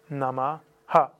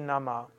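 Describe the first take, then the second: First: The word ends with a short a after h. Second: The word ends on the h without a vowel. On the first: The speaker calls it right. "Es ist Namaha" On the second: The speaker calls it wrong. "dass Menschen nicht auf die Idee kommen zu sagen"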